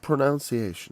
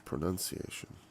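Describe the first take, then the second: First: The second syllable sounds like 'nounce'. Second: The second syllable sounds like 'nun'. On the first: The speaker calls it wrong. "it's not pronunciation" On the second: The speaker calls it right. "it's pronunciation. And that's right"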